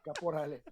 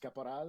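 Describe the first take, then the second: First: The name is said with Spanish pronunciation. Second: The name is said with French pronunciation. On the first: "like my mom does" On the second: "the francophone way"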